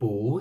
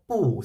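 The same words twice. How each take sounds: First: The word is said with a rising tone. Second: The word is said with a falling tone. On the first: "changed into the second tone" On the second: "the tone of the 不 sound"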